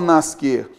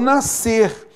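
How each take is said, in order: First: The S and C are pronounced as separate sounds. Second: The S and C merge into a single sound. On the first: The speaker calls it wrong. "Eu não falo nascer" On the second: The speaker calls it right. "duas letras para formar apenas um som"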